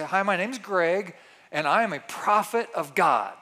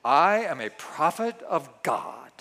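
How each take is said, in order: First: Mock prophet voice. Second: Slow, solemn prophet proclamation. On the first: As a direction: pretend prophet, lightly voiced. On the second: Pretend. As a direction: intone it like a self-styled prophet. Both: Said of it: "I even changed my voice".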